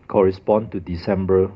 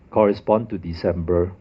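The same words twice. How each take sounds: The two takes are said the same way.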